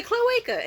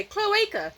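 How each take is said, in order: First: Very high, louder repeat; insistent joke repeat. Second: High-pitched playful blurt; joking interjection. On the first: Audience member repeating joke to crowd, playfully insistent. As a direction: pitch it up for the baffled crowd. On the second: Audience member jokingly finishing comedian's setup, playful. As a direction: toss it out high as a joke. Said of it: "I jokingly say". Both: Retold or imitated.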